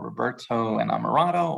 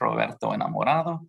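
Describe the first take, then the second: First: The name is said with an English accent. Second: The name is said with a Spanish accent.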